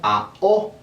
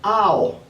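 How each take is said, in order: First: The two vowels are separated by a pause. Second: The two vowels glide together without a pause. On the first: The speaker calls it wrong. "y no como" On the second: The speaker calls it right. "sin hacer pausa entre ellos"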